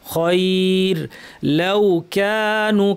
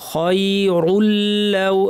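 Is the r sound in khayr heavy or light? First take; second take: light; heavy. First: Reader stops after khayr; the r is light. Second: Words are joined and the r is heavy. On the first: The reader stops after this word. "থেমে গেলে র পাতলা করে থামবো" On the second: The reader continues without stopping. "যদি মিলিয়ে পড়তাম আমরা রকে ভারী রাখতাম"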